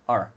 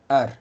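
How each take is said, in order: First: The R is made the English way. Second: The R is made the Spanish way. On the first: The speaker calls it wrong. "nunca, jamás haga el sonido de R" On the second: The speaker calls it right. "Tiene que hacer siempre R"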